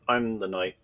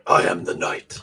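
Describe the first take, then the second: First: It is said in an ordinary speaking voice. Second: It is said in a gravelly Batman voice.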